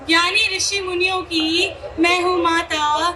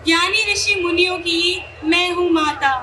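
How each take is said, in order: Both takes have the same delivery.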